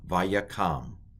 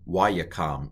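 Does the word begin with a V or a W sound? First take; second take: V; W. First: The word begins with a V sound. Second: The word begins with a W sound.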